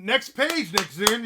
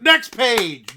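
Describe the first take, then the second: First: Loud call. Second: Full shout. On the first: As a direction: call it out high and loud like an announcer. Calling out next page. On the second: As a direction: belt it out much louder, high. Repeats the call even louder. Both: Acted.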